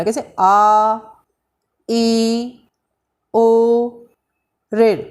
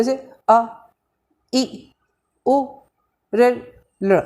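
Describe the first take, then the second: First: आ, ई, ओ each held for two beats; teacher demonstrating long vowels; long vowel demo. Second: Each vowel अ, इ, उ clipped to one beat; teacher demonstrating short vowels; short vowel demo. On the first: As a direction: stretch ई to double length, steady pitch. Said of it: "दो मात्रा लग रही है". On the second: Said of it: "उतना समय लगने को ह्रस्व बोलते हैं". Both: Shown as a demonstration.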